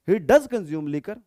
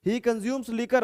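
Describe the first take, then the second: First: Does pressed, slow and loud; stress on does. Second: Said in the usual way. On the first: Shown as a demonstration. Teacher contrasting plain and emphatic sentence, stressing does. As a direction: lean on does in "He does consume liquor". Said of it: "इस तरीके से दबाव देके बोलने के लिए". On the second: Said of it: "इस तरीके से दबाव देके".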